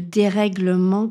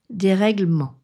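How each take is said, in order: First: The middle E vowel is pronounced. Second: The middle E vowel is dropped. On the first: The speaker calls it right. "le dérèglement dans l'expression le dérèglement climatique" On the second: The speaker calls it wrong. "on ne peut pas dire dérèglement"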